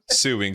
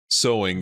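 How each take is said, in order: First: It sounds like the word suing. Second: It sounds like the word sewing. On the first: The speaker calls it wrong. "I kept just saying suing" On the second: The speaker calls it right. "Like you say it sewing"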